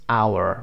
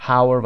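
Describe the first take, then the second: First: "hour" with no H, as "OW-er"; silent H. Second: "hour" with an audible H, as "HOW-er"; wrongly sounded H. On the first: Teacher models the word for learners, saying "hour" as "OW-er". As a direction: start "hour" straight on the vowel, dropping the H. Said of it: "به این صورت". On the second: Teacher warns learners off a misreading, saying "hour" as "HOW-er". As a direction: put a breathed H on the front of "hour". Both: Shown as a demonstration.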